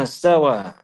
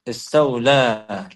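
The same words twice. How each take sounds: First: Istawa with no l sound; original word. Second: Istawla with an l before the last vowel; slow istawla, ending in "la"; added lam. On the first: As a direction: say istawa, "wa" straight after "ista". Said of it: "Like they'll say istaw". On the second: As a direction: draw out istawla, sounding the extra l. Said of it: "They add a lam". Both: Shown as a demonstration.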